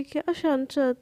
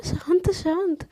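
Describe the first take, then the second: First: Irritated mocking echo. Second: Soothing calm down. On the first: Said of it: "बोलती है". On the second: Acted. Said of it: "सोना क्या हुआ".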